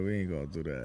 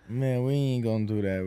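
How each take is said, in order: First: Much lower, softer repeat; very low mock refusal. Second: Low mock refusal. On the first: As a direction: drop it way down low.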